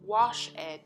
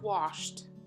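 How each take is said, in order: First: The ending is said as an extra syllable. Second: The ending adds no extra syllable. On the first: The speaker calls it wrong. "add a syllable at the end of words that end in ed" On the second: The speaker calls it right. "instead of washed"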